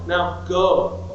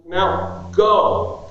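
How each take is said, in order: First: Said in the usual way. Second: Now, then go punched louder; stress on GO. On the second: Shown as a demonstration. Preacher telling the congregation, go punched loud. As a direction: hit the word go hard, like all caps. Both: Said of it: "made it all caps, bold, underlined, italicized".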